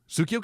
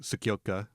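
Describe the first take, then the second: First: The u after Ts is clearly pronounced. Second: The u after Ts is swallowed. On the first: The speaker calls it wrong. "I think I'm saying that wrong" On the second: The speaker calls it right. "I think that U gets swallowed"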